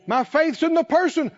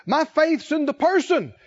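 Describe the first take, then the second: No difference in how they are said.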